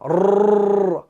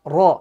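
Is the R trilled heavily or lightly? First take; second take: heavily; lightly. First: The R is trilled strongly with many taps. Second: The R is trilled lightly with few taps. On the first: The speaker calls it wrong. "ज्यादा शिद्दत के साथ तिकरार करना ... यह तरीका गलत है" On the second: The speaker calls it right. "बिल्कुल हल्का रॉ तिकरार करना है"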